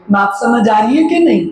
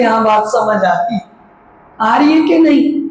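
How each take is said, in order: First: Said in the usual way. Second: Higher and a bit louder, pressing for an answer; louder, higher repeat. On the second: Shown as a demonstration. Preacher repeats the question to the congregation, higher and insistent. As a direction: push the question up to wake them. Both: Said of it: "मैं थोड़ा धीरे बोल रही हूँ".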